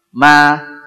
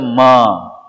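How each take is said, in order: First: The syllable is pronounced thin and light. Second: The syllable is pronounced thick and heavy. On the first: The speaker calls it right. "Mestinya ma. Tipis dia" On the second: The speaker calls it wrong. "bukan isti'la tapi dibaca ma"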